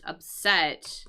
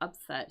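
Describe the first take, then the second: First: The stress is on the second syllable. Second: The stress is on the first syllable. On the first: Someone feels sad, angry or frustrated. "we can use it as like an adjective" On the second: Someone beats the team expected to win. "with the accent on the first syllable"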